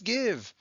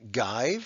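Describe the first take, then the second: First: The vowel is a short 'ih' sound. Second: The vowel is a long 'eye' sound. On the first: The speaker calls it right. "is still iv" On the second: The speaker calls it wrong. "It's not give"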